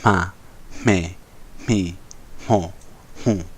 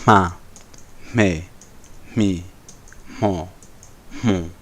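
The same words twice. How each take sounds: First: The syllables are said fast. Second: The syllables are said slowly.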